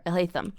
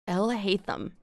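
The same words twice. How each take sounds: First: "El Haytham" with the weight on HAY; "El Haytham" said as il HAY-thum, second syllable strongest; stress on HAY. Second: "El Haytham" with the weight on EL; "El Haytham" said as EL hay-thum, first syllable strongest; stress on El. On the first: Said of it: "that sounds even better". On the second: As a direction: lean on the first word EL in "El Haytham". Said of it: "on the wrong syllable". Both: Shown as a demonstration.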